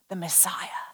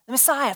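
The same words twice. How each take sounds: First: Low, breathy near-whisper; hushed reveal. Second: Said in the usual way. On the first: Real, not acted. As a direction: whisper it in awe. Hushed reveal of who is coming.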